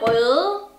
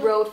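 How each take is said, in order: First: The name is pronounced with a Danish vowel. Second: The name is pronounced with an English vowel. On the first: "I want to call it Røde, which is in Danish" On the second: "let's call it Rode for all of you international people"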